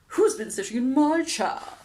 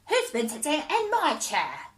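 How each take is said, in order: First: It is said in a loud howl. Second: It is said in a high squeak.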